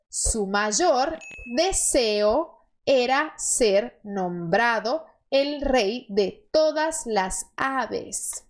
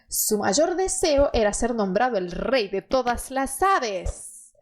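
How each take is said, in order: First: The sentence is said slowly. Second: The sentence is said at normal speed.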